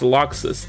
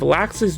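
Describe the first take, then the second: First: The first syllable sounds like 'lox'. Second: The first syllable sounds like 'lax'. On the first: The speaker calls it right. "which is actually pronounced Loxus" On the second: The speaker calls it wrong. "how I thought they were supposed to be pronounced"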